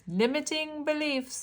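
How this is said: It is said in an odd, put-on voice.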